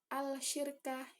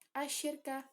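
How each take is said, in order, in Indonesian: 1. L dibaca jelas sebelum sh. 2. L melebur menjadi bunyi sh yang ganda. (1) "bukan al-syirka, itu bukan" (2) "bacanya asyirka"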